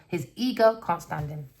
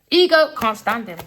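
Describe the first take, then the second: First: Said in the usual way. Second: Loud, higher insistence; forceful, raised-pitch declaration; emphatic repeat. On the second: Real, not acted. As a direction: hammer it home loudly.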